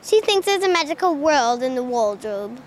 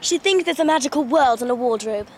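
First: Low, careful try at English accent; copied English accent. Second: Crisp English accent without Rs. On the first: Pupil copying the Narnia line, attempted English accent. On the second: Demonstrating a Narnia line, English accent. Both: Shown as a demonstration. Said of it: "I like the English accents from that one".

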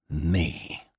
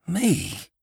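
First: Bitter "Me", held down; terrible bitterness. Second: High-pitched, startled "Me?"; cried out. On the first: Annie repeating her disbelief, with terrible bitterness. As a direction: repeat it with understated, bitter scorn. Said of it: "repeated Annie, with a terrible, bitter accent". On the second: Annie hearing she is chosen, crying out. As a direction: cry it in disbelief, pitched right up. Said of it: "cried Annie". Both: A narrator's reading.

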